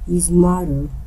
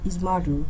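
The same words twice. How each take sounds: First: The T sound is dropped completely. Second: The T sound is there but said softly. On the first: The speaker calls it wrong. "É como se eu falasse é, sem o T" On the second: The speaker calls it right. "É normal"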